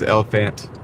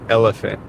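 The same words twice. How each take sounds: First: The stress is on the last part. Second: The stress is on the first part. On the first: "the text to speech puts the emphasis towards the last part of the word" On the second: "I kind of tend to like put the emphasis towards the first part of the word"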